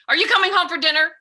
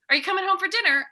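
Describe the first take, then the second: First: It sounds loud and angry, like shouting. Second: It sounds gentle and warm, like caring.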